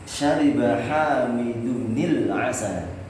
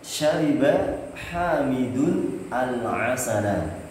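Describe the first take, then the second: First: The last two words are joined with a linking sound. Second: The last two words are said separately.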